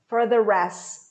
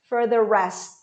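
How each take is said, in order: Both takes have the same delivery.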